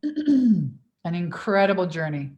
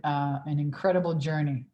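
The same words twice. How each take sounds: First: Slow, louder "An incredible journey"; emphatic repeat. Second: Said in the usual way. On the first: Shown as a demonstration. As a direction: lean into "incredible journey" slowly.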